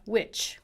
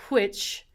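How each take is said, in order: First: Which with a plain w, no breath. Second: Which with a breathy wh; aspirated wh. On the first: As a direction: say which like witch. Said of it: "Or you can have which". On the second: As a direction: blow air on the wh of which. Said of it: "You can have". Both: Shown as a demonstration.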